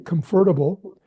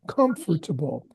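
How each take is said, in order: First: The stress is not on the first syllable. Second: The stress is on the first syllable. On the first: The speaker calls it wrong. "which is not the best way to say it" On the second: The speaker calls it right. "emphasis on the first syllable"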